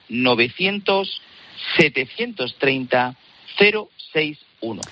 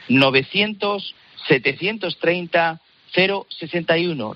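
First: The number is said slowly. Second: The number is said at normal speed.

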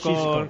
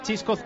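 First: The name begins with a hushing sh sound. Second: The name begins with a ch sound. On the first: The speaker calls it right. "Con X, como dice su nombre, vaya, con una S" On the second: The speaker calls it wrong. "Chisco con CH"

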